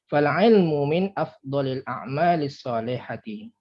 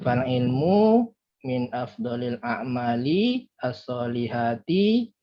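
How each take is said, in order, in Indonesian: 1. Harakat pendek tetap dibaca pendek dari awal sampai akhir. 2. Sebagian harakat pendek dibaca panjang. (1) "Sesuai ya kalau dia pendek misalnya" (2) "Jadi jangan bilang eh, ... padahal kan tidak panjang kan"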